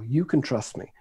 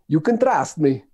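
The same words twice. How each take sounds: First: It is said in a British accent. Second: It is said in an Italian accent. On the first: The speaker sounds believable. "when I say it with a British accent, it works quite well" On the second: The speaker sounds laughable, not believable. "Whenever I do it with an Italian accent, people just laugh at me"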